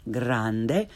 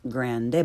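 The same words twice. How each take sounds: First: "grande" with open ah, rising end; correct Italian pronunciation. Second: "grande" starting like English grand; learner's mispronunciation. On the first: Teacher corrects beginners, "grande" with Italian ah. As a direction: say "grande" as GRAHN-deh. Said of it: "follow it with the correct pronunciation". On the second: Teacher shows beginners' mistake, "grande" with English short a. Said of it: "first the way most people". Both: Shown as a demonstration.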